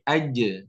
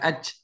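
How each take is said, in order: First: The final j is released with a bounce. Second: The final j is held without release. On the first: The speaker calls it right. "tapi aja" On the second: The speaker calls it wrong. "bukan aj"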